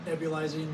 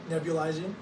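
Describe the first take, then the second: No difference in how they are said.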